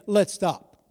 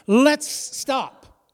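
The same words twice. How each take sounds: First: It is said plainly, with mild conviction. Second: It is said forcefully, with strong conviction.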